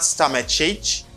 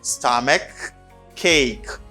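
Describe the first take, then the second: First: The words do not both end in k. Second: Both words end in a clear k sound. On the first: The speaker calls it wrong. "It's not stomach ache. No" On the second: The speaker calls it right. "Both side you have k, k sound"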